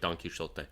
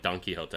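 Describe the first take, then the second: First: The middle consonant is a clear sh sound. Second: The middle consonant is a breathy h-like sound. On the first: This is how the name was said originally. "initially like" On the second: This is how the name is said now. "it's actually the same thing with uh, like Don Quixote"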